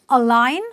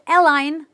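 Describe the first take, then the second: First: The first vowel is a relaxed 'uh' sound. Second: The first vowel is an open 'eh' sound. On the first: The speaker calls it right. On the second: The speaker calls it wrong.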